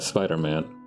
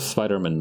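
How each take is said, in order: First: A slight break separates Spider and Man. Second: Spider and Man are run together, no break. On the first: The speaker calls it right. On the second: The speaker calls it wrong.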